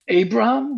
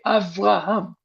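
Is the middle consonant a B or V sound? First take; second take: B; V. First: The middle consonant is a B sound. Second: The middle consonant is a V sound. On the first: "with the B" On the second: "with the letter of the, of the V letter"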